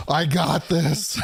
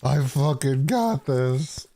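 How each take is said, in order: First: Slow, high, laughing through it; mock heroic resolve. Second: Slow, drawn-out, leaning on got; hammed-up hero vow. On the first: Hero in the Mexico skit, laughing mock confidence. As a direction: grin through a hammed-up I got this. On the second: Hero in the Mexico skit vowing, slow hammed-up resolve. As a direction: play the action hero, milking each word.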